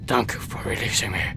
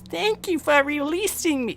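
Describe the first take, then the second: First: It is said in a deep, gruff Batman voice. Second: It is said in a light, weak voice.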